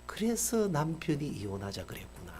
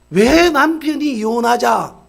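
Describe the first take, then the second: First: Softer, inward muttered thought; quiet realization. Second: Much louder, slower, stressed 왜; loud question. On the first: Principal realizes why her husband wanted divorce, murmuring. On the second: Preacher asks the congregation why the husband wanted divorce, loudly. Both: Retold or imitated.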